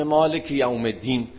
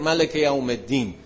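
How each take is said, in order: First: "مالک" with long aa, maalek; long-vowel reading. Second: "ملک" with a short first vowel, malek; short-vowel dialect reading. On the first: One reader recites the Prophet's revelation, "مالک" as maalek. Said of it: "مالک و ملک میگفت مثلاً". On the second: Another reader recites for townspeople in his dialect, "ملک" as malek. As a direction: say "ملک" as ma-lek, no long aa. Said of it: "اینجوری میخوند". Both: Shown as a demonstration.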